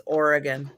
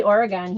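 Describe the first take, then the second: First: Oregon said OR-uh-gun, last syllable reduced; correct Oregon pronunciation. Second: Oregon said OR-uh-gahn, open final vowel; local Oregon pronunciation. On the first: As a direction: say Oregon with a short schwa ending. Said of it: "it's not Oregon". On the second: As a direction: say Oregon with a full gahn ending. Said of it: "so obviously I say it wrong". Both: Shown as a demonstration.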